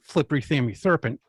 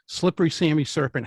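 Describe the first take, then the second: First: The s sounds are said with a lisp. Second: The s sounds are said clearly.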